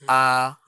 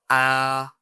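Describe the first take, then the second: No difference in how they are said.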